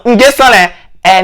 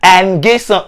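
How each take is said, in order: First: "Nguessan" drawn out slowly and louder; slow insistent. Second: Said in the usual way. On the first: Shown as a demonstration. Correcting the voicemail pronunciation, slow loud "Nguessan". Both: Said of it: "Il a pas compris?".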